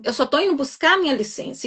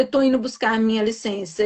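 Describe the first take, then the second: First: Chin held high. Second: Said in the usual way. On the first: Retold or imitated. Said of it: "falei de queixo erguido, com muita prepotência".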